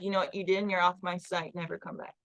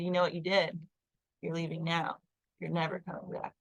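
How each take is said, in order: First: Said in the usual way. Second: Calmly. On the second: Retold or imitated. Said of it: "my super just calmly said".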